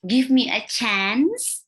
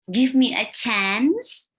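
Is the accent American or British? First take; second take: American; American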